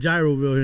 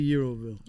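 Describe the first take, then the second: First: The word begins with a J sound. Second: The word begins with a Y sound. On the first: This is how people locally say it. The speaker calls it wrong. "everybody calls it Gyroville here in South Florida" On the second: This is how it is really said. The speaker calls it right. "It's really Euroville"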